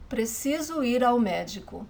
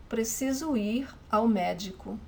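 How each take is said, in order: Both takes have the same delivery.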